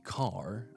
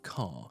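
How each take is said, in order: First: The r at the end is clearly pronounced. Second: The r at the end is silent, one long vowel. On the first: "American would be car" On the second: "but we would have car"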